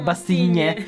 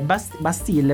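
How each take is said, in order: First: The name ends with an 'een-yeh' sound. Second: The name ends with a plain 'eel' sound.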